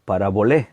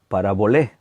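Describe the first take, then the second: First: The word is said with Greek pronunciation. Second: The same.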